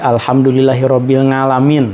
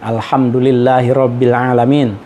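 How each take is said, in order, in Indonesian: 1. Kata terakhir dimulai dengan bunyi ng. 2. Kata terakhir dimulai dengan bunyi vokal. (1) "menjadi alhamdulillahi rabbil ngalamin" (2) "mengucapkan uh, Rabbil alamin"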